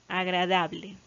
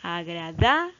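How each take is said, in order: First: Said in the usual way. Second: "agradable" with DA held and rising, a break before "ble"; teacher marking the DA in "agradable"; stress on DA. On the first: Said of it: "La sílaba tónica está marcada aquí". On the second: Shown as a demonstration. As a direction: punch the "da" of "agradable", pause, then "ble". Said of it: "recae sobre la sílaba da".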